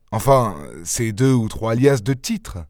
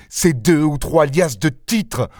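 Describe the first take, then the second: First: Said in the usual way. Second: Mocking echo. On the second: Lupin echoes mockingly.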